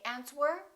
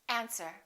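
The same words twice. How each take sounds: First: The w sound is pronounced. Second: The w sound is silent. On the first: The speaker calls it wrong. "Don't say answer" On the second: The speaker calls it right. "silent W"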